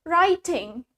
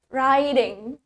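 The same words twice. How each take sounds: First: British accent, with a clear T sound. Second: American accent, with the T sounding like D. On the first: "Di British, kita mengucapkan T-nya dengan sangat jelas" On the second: "we replace the T with D"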